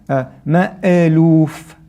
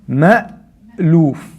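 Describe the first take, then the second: First: An extra bouncing vowel follows the glottal stop. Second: The glottal stop closes cleanly into the next sound. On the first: The speaker calls it wrong. "you don't want to say ma'aluf... that extra sound is called qalqala" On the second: The speaker calls it right. "Ma'luf, not ma'a"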